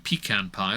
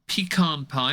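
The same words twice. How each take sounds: First: Pecan is pronounced the British way. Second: Pecan is pronounced the American way. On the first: It is the local way of saying it. "as we say it here" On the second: It is meant to appeal to Americans. "I've said it that way on purpose"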